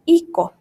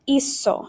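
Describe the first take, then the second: First: The middle consonant is a hard k sound. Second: The middle consonant is an s sound. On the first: The speaker calls it wrong. "if you did not change it, it would say ico" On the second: The speaker calls it right. "It makes the S sound"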